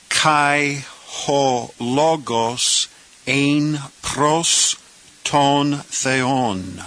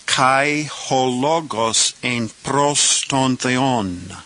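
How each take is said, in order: First: Very slow, every syllable of "Kai ho logos ein pros ton theon" drawn out; slow careful reading. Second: A little faster. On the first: Teacher reading the second clause to beginners, very slow. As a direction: take the Greek clause very slowly. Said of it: "now let's say this clause". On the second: Teacher rereading the clause a little faster for students. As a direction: still slow but quicker than the first take, flowing through "Kai ho logos ein pros ton theon". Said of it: "This time a little faster". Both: Shown as a demonstration.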